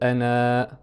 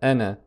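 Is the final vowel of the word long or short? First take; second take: long; short. First: The final vowel is drawn out long. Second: The final vowel is cut short. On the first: The speaker calls it wrong. "On ne va pas dire ana" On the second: The speaker calls it right. "ne se prononce pas avec une prolongation"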